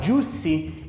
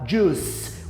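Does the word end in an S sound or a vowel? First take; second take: vowel; S sound. First: The word ends with an added vowel sound. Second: The word ends with an S sound. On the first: The speaker calls it wrong. "eu não vou falar juicy" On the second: The speaker calls it right. "O último som vai ser esse S"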